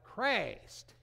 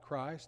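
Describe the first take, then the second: First: The word is said in an affected, preacherly way. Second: The word is said in an ordinary, plain way. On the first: "they'd talk about Christ" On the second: "They wouldn't talk about Christ"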